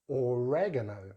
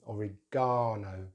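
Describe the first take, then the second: First: The stress is on the second syllable. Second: The stress is on the third syllable. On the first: This is the American pronunciation. "with stress on that second syllable" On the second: This is the British pronunciation. "with stress on that ... third syllable"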